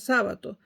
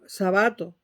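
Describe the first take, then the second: First: The stress is on the first syllable. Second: The stress is on the second syllable. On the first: The speaker calls it wrong. "la convirtieron en esdrújula y todo el mundo dice Sábato" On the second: The speaker calls it right. "así se pronuncia. No es una palabra esdrújula"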